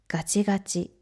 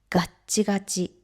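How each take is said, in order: First: The word flows without a break after ga. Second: A short held stop follows the first ga.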